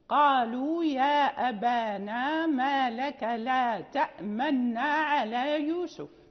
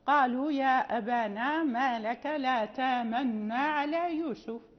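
First: A glottal stop is heard in ta'manna. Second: A long vowel replaces the glottal stop.

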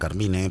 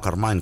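First: The name is said the Italian way. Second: The name is said a non-Italian way. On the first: The speaker calls it right. "porque era italiano" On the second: The speaker calls it wrong. "y no Carmine"

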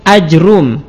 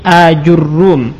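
First: Short first a, bare j, then a single r. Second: Long first a, then ju, then a doubled r. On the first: "memfathah hamzah tapi tidak dimatkan, kemudian mensukun jim dan mendomah ra tanpa ditasydidkan" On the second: "dengan hamzah mamdudah, kemudian jim di dhammah, ra di dhammah dan di tasydid"

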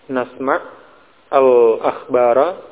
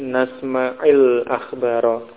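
First: The first word ends without a linking vowel. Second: An 'i' vowel links the first word on.

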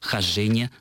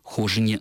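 First: The stress is on the second syllable. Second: The stress is on the first syllable. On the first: The speaker calls it right. "Еще раз" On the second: The speaker calls it wrong. "нет никаких оснований называть эту книгу"

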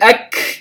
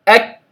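First: The k is released with a harsh scraping sound. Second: The k is released with a light flow of breath. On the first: The speaker calls it wrong. "لا أقول أك كأني يعني كحت المخرج" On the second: The speaker calls it right. "فجريان النفس كأن هواء يجري مع الحرف"

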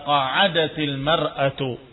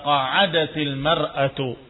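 First: The t of qa'adat links with an i vowel. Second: The t of qa'adat links with an i vowel.

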